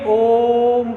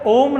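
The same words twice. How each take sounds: First: The vowel is drawn out for a long time. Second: The vowel is held for a normal length. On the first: The speaker calls it right. "ओम करके पढ़ेंगे" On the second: The speaker calls it wrong. "इसको ओम ना पढ़ेंगे"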